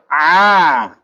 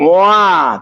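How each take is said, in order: First: The vowel is a plain open a. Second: The vowel starts with a rounded w-glide. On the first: The speaker calls it right. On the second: The speaker calls it wrong.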